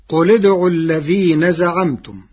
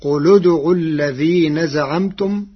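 First: قل said qul with a silent lam; قل in the common reading, loud; recited citation. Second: قل said qulu, with a damma on the lam linking into ادعوا; قل in Warsh's way, recited loud; Warsh reading. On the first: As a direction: recite قل ادعوا with qul cut short. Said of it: "قرأ ورش كلمة قل". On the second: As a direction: say qulu-dʕu with the lam voweled. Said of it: "فتصير". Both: Shown as a demonstration.

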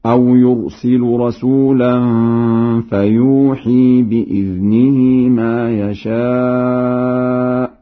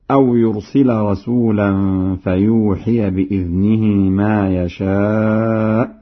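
First: Slow chant, "يرسل" ending u, "فيوحي" ending long ee; Warsh recitation. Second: Said in the usual way. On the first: Shown as a demonstration. Teacher demonstrates Warsh's reading, chanting "يرسل" with final u. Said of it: "بإسكان اللام هكذا". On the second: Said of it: "برفع اللام".

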